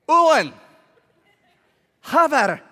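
It is said in a put-on accent.

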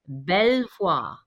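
The name is pronounced with a French accent. "in that impeccable French accent, he declared"

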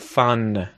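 The word ends cleanly on the n consonant. The speaker calls it right. "we effectively have a consonant sound at the end"

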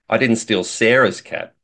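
The stress is on the word 'Sarah's'. The speaker maybe stole someone else's cat. "implies that maybe I stole somebody else's cat"

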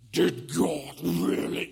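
It is said in a creepy, hissing snake voice.

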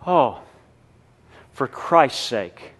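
It is said in a sincere, earnest tone. The hardship is accepted for Christ. The speaker calls it right. "and mean it sincerely"

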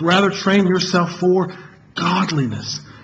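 The word "godliness" carries the main stress.

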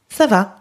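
The pitch falls at the end.

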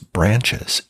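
It is said in an American accent. "in American English is branches"

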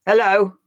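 The word sounds angry.

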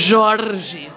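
It has a strong Paulista R sound.

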